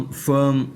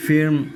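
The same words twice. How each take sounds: First: फर्म with a neutral "ur" vowel; zabar vowel. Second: फिर्म with short "i" and sounded r; wrong "i" vowel. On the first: Teacher showing how firm is read, फर्म with "ur". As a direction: say फर्म as "furm". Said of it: "फर्म पढ़ते हैं". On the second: Teacher warning against misreading firm, फिर्म with "i". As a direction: mispronounce firm as फिर्म, "fir-m". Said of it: "फिर्म नहीं पढ़ते". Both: Shown as a demonstration.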